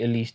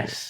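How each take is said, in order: First: It is said as one word, Elise. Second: It is said as two letters, L S. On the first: The speaker calls it wrong. "we've all been saying it wrong" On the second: The speaker calls it right. "L S from now on"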